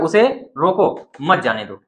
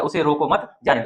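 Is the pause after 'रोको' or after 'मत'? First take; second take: after रोको; after मत. First: The pause comes after the word 'रोको'. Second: The pause comes after the word 'मत'.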